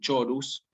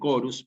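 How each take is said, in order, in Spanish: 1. Empieza con sonido 'ch', como en church. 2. Empieza con sonido 'k', como en kit. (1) "Esto no se dice chorus" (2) "sino que se dice chorus"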